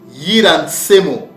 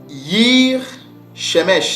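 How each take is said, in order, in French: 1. Le nom se termine par un son 'mo'. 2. Le nom se termine par un son 'mesh'. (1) "comment nos pères prononçaient ces mots" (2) "selon la prononciation édomite"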